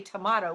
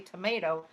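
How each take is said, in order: First: It is said with a British accent. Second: It is said with an American accent. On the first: This is how people from England say it. "you guys are from England, and then you say tomato" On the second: This is how the speaker's own group says it. "we say tomato"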